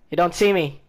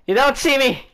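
First: Said in the usual way. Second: Higher-pitched, punchier insistence; raised taunt. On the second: Real, not acted. Player repeating a taunt to unseeing enemies, raised voice. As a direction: call it out high and forcefully.

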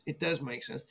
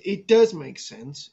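First: Much softer muttered does, falling; trailing-off repeat; quiet repeat. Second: Does leaned on, slow and deliberate; emphatic insistence on does; stress on does. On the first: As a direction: drop it almost under your breath. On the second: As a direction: slowly hit the word does. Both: Shown as a demonstration. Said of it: "It, it, it".

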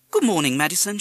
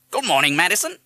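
First: High, loud greeting to a parrot; mother's greeting. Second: High, loud parrot echo; parrot mimic. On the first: Mother greeting the parrot at breakfast, coaxing. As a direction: call it sing-song to a pet bird. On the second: Parrot replying to the mother, loud mimicry. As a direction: parrot it back loudly. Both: A narrator's reading.

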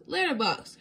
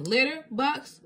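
First: Letter box run together as one word, bright; realising. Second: Letter and box said slowly as two separate words; slowly puzzling it out. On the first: Bluey solving the clue, joined up quickly. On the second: Bluey puzzling over the clue, slow and separated. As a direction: pause between letter and box, thinking. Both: Acted.

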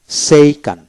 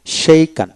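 Both takes have the same delivery.

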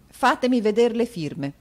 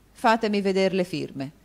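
First: Higher, louder curt repeat; impatient. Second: Said in the usual way. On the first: Acted. Rodolfo to Mantalini, impatiently demanding the signatures. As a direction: demand it, out of patience. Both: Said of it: "stendendo impaziente la mano".

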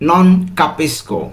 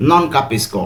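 First: "non capisco" stretched out very slowly, every syllable clear; slow model answer. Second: Said in the usual way. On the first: Shown as a demonstration. Teacher revealing the right answer very slowly. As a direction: draw out "non capisco" for the learners. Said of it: "এর সঠিক উত্তর হবে". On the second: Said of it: "অর্থ আমি বুঝতে পারছি না।".

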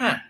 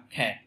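First: British "cat" with an open A; British English cat. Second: American "cat" leaning to E; American English cat. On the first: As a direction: say "cat" the British way, vowel close to A. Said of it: "Tiếng Anh, Anh thì đọc là". ("cat" giọng Anh Anh, âm A) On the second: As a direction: say "cat" the American way, A closed towards E. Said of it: "tiếng Anh Mỹ sẽ đọc là". ("cat" giọng Anh Mỹ, nghiêng về E) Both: Shown as a demonstration.

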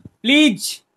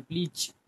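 First: Loud, high-pitched "please"; emphatic plea. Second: Said in the usual way. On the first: Real, not acted. Streamer begging chat to stop writing that, loud emphatic plea. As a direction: burst out pleading, pitch jumping up.

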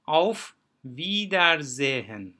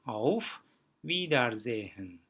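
First: "Auf Wiedersehen" loud and slow, long i and z for S; careful word-by-word demo. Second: "Auf Wiedersehen" at ordinary volume, long i and z for S; simplified demo. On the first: Teacher applying the reading rules, loud slow demonstration. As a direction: sound out "Auf Wiedersehen" in emphatic stretched pieces. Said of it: "uzun i'ydi". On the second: Teacher showing the hard word is simple, relaxed careful pronunciation. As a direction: say "Auf Wiedersehen" easily, slightly slow, brief pause after Auf. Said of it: "çok daha basitleştiğini görüyoruz".

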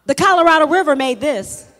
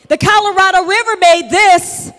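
First: Said in the usual way. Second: Preaching loud. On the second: Acted. Preacher proclaiming to his congregation, loud and ringing. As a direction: repeat it louder, ringing out.

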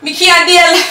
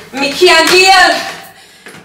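First: Higher Jamaican patois at normal pace, stress on can't; Jamaican accent, quicker. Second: Higher, very slow Jamaican patois, stretching every word; Jamaican accent, drawn out. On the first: To her viewers, tired of the rush, a quick Jamaican accent. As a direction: snap it back in a Jamaican accent. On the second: To her viewers, worn out from Nigeria, a slow Jamaican accent. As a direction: moan it slowly in a Jamaican accent. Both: Acted. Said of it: "that's why I didn't do my Jamaican accent".

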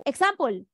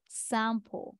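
First: Example said eksampol with full Spanish vowels; the learner's accented Example, every vowel full. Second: Example said the English way, ig-ZAM-pul, softly; corrected pronunciation. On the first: Teacher voicing the learner's wrong Example in a Spanish accent. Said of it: "when they're using a Spanish accent". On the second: Teacher softly modelling the right example for a learner. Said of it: "Repeat after me". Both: Shown as a demonstration.

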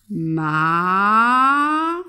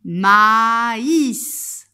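First: "Ma-is" in two very long syllables, pause between. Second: "Maïs" loud and drawn out, both vowels long; word for repeating. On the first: Teacher drawing circles per syllable, "Ma-is" split in two. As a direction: break "Ma-is" apart, louder, holding each vowel. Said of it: "j'ai deux syllabes". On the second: Teacher asking pupil to repeat along, "Maïs" slowly and loudly modelled. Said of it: "Répète avec moi". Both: Shown as a demonstration.

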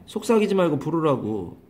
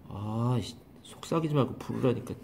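First: Said in the usual way. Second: Much softer, a fed-up grumble under the breath; exasperated mutter. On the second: Real, not acted. Teacher annoyed that the student keeps whispering, soft fed-up grumble.

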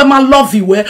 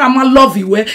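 No difference in how they are said.

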